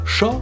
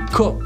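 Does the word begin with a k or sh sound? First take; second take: sh; k. First: The word begins with a sh sound. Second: The word begins with a k sound. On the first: The speaker calls it wrong. "ne se prononce pas cha" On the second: The speaker calls it right. "mais ko"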